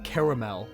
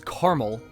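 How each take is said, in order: First: The word is said with three syllables. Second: The word is said with two syllables. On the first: The speaker calls it wrong. "not caramel, because there is only one A" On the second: The speaker calls it right. "it is caramel"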